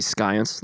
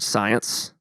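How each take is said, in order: First: The word begins with an SK sound. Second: The word begins with a plain S sound. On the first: "Otherwise it'd be science, like scone" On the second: "the word science is a silent C"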